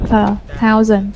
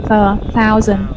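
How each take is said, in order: No difference in how they are said.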